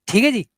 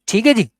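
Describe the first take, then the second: Both takes have the same delivery.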